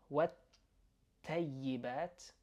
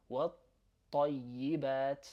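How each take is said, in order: First: والطيبات with a thin English T; wrong light T. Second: والطيبات with a heavy doubled T. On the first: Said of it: "that's wrong". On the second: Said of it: "That's how you wanna do it". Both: Shown as a demonstration.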